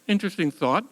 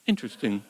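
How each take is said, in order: First: Wry, ironic rise on interesting. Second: Said in the usual way. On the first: Real, not acted. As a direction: say interesting as if you doubt it.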